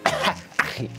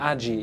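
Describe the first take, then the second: First: The middle consonant is a rough ch sound. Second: The middle consonant is a j sound. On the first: The speaker calls it right. "Achi, habe ich gelernt, heißt sie" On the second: The speaker calls it wrong. "Nicht Aji. Ich habe gesagt Aji wegen des J's"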